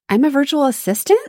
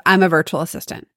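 First: Ends on a rising question tune; unsure uptalk rise; upward inflection. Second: "I'm a virtual assistant." ends falling, quick and sure; confident falling statement; downward inflection. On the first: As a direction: say it like you're asking, lilting up at the end. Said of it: "If you end on upward inflections". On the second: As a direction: state "assistant" flatly, dropping at the end. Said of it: "you end on downward inflections". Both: Shown as a demonstration.

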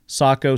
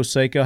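First: Sako as SAH-koh, open first vowel. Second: Seiko as SAY-koh. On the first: Host asking guest how to say it, Sako as SAH-koh. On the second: Host asking guest how to say it, Seiko as SAY-koh. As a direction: say Seiko with an "ay" in the first syllable. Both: Shown as a demonstration. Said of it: "How do you say that?".

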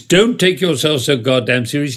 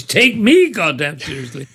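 First: Said in the usual way. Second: ME pitched high and punched; stress on ME. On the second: Acted. Conductor's joke version of the rule, stressing ME. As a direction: hit "me" high and indignant, laughter breaking in. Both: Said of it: "the conductor's version of rule number six".

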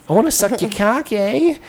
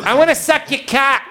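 First: High mock Minnesota, rising on "eh"; Minnesota accent. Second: Very high, exaggerated Boston accent. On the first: Northern woman propositions a caller, mock Minnesota accent. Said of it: "Minnesota northern accents". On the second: Boston girl answers the caller, hammed-up Boston accent. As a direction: squawk it as a mock Boston girl. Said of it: "a girl from Boston".

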